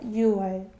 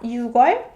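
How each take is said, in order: First: No k sound is heard in the middle. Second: A k sound is heard in the middle. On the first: The speaker calls it right. "but 유월" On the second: The speaker calls it wrong. "June is not 유월"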